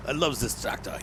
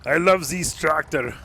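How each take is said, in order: First: Half-hearted fake French accent; bad French accent. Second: Loud, slow, higher-pitched mock French accent; fake French accent. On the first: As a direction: try a French accent at your usual pitch. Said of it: "I cannot do French accents". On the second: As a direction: ham up a bad French accent, drawn out. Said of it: "this is not a fake French accent".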